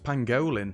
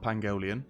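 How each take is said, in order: First: The word ends in a short '-lin' sound. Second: The word ends in an extra '-lian' sound. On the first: The speaker calls it right. "It's pangolin" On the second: The speaker calls it wrong. "not pangolian"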